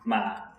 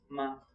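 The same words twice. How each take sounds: First: The pitch dips low, then rises again. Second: The syllable is short and light, with no tone. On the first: "falling, then rising" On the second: "the tone that is no tone"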